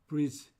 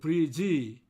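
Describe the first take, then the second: First: The word ends on the consonant with no vowel. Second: An extra vowel is added after the final consonant. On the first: The speaker calls it right. "모음 없이 어, 자음 dg 발음만 하면 됩니다" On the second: The speaker calls it wrong. "이 모음을 넣습니다만"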